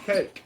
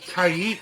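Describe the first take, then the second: First: It is said in one syllable, rhyming with 'bake'. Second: It is said in two syllables, 'kai-eek'. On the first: The speaker calls it wrong. "I've heard some people call them cakes" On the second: The speaker calls it right. "that is how you pronounce the name"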